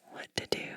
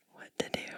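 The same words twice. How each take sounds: The two takes are said the same way.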